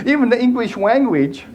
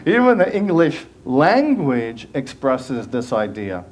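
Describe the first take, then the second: First: Higher, said through a giggle; real laughter in the words; laughing. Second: Said in the usual way. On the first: Real, not acted. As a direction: laugh while correcting yourself. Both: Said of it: "I'm channeling Bugs Bunny".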